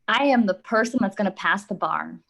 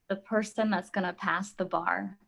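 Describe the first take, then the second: First: It is said in a cocky, confident tone. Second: It is said in a plain, neutral tone.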